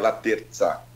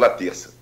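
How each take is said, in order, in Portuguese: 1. O sobrenome é dito com um som de z, à italiana. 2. O sobrenome é dito com um som de s simples. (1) "Pela origem da palavra, né, o sobrenome é italiano, seria Laterza" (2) "Então ficou Laterça, é mais usual"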